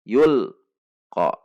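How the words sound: There is a break between the two parts. The speaker calls it wrong. "Contoh yang diputus"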